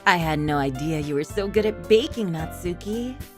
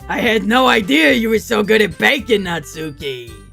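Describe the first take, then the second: First: It is said in an evil voice. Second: It is said in an old man voice.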